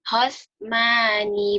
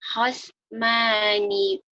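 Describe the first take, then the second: Both takes have the same delivery.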